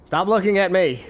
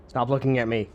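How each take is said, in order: First: Raised, louder second take; louder repeat. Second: Said in the usual way. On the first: Acted. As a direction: say it again, louder and higher.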